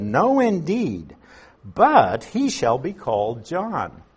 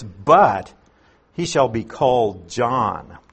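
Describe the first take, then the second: First: Slow, weighty no, every word set down firmly; slow and firm, stressing No, indeed; emphatic refusal. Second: But punched loud, then he shall be called John plain; a sharp loud but that opens the reply; stress on but. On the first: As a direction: read it as a mother who will not budge. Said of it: "Elizabeth's response is very emphatic". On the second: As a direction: hit the word but hard. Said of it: "that word but is the strong adversative". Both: Retold or imitated.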